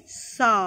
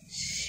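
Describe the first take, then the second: First: সা drawn out slowly with a full vowel; slow clear সা with open a; slow letter demo. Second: স as a soft long hiss, no vowel; quiet voiceless স hiss; hissed letter sound. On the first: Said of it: "জিভটাকে নিচে লাগিয়ে সা". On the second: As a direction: breathe স out as bare friction. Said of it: "এখানে উচ্চারণটা একটু উঁচু ধরনের হবে". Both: Shown as a demonstration.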